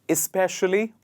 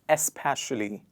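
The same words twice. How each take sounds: First: The word begins with an 'is' sound. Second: The word does not begin with an 'is' sound. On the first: The speaker calls it right. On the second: The speaker calls it wrong.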